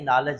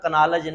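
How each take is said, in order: First: The k at the start is silent. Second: The k at the start is pronounced. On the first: The speaker calls it right. "इसमें के silent है" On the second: The speaker calls it wrong. "कनालज नहीं"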